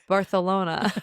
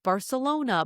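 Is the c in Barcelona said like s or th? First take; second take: th; s. First: The c is said as a lisped th. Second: The c is said as a plain s.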